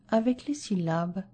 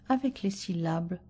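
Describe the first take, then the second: Both takes have the same delivery.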